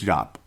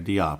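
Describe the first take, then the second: First: The name is pronounced as Jop. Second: The name is pronounced as Diop. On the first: The speaker calls it right. "Call him Jop. It's Jop" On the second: The speaker calls it wrong. "I can't believe how many people say Diop"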